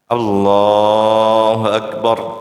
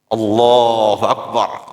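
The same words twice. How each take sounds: First: The vowel is stretched out longer. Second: The vowel is stretched only briefly. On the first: "Paling lambat seperti biasa enam harakat" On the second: "kalau dapat lebih dikit lagi tiga"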